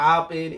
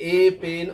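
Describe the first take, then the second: First: The article is said as 'uh'. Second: The article is said as 'ay'. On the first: "অনেকে বলে আ pen" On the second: "যেমন এ pen"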